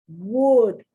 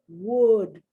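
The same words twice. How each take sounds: The two takes are said the same way.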